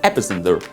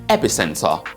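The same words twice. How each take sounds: First: It is said with a General American accent. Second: It is said with a British accent. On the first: "General American pronunciation" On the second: "B B C pronunciation"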